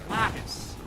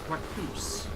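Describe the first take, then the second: First: The name is said as 'Lacus'. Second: The name is said as 'Raccoose'. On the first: The speaker calls it right. "it's very clear that it's Lacus" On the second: The speaker calls it wrong. "it's pronounced Raccoose"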